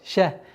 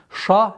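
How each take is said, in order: First: The syllable is pronounced with a soft, light consonant. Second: The syllable is pronounced with a hard, heavy consonant. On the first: The speaker calls it right. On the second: The speaker calls it wrong.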